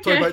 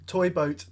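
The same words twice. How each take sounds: First: It is said fast without care. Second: It is said slowly and carefully.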